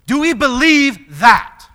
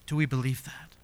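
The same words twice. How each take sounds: First: High, loud, slow question; forceful challenge. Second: Low, soft searching question; hushed challenge. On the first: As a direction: challenge the congregation at full voice. Challenges congregation, then repeats softly. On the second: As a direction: ask it quietly after the big challenge. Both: Real, not acted.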